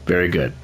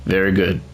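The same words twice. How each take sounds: The two takes are said the same way.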